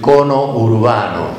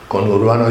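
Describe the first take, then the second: First: An extra 'o' splits it into two words. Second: It is one word with no extra vowel. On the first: The speaker calls it wrong. "dice cono urbano" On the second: The speaker calls it right. "en vez de decir conurbano"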